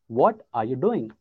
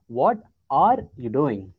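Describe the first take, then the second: First: The stress falls on the word what. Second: The stress falls on the word are. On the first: "let's focus on what" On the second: "take away what, focus on are"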